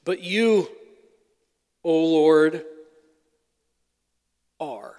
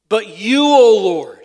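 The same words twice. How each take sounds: First: Said in the usual way. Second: "But you, O Lord" with "Lord" much louder; emphatic. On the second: Shown as a demonstration. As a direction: hit "Lord" hard, a proclaiming lift on "you". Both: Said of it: "It's an emphatic".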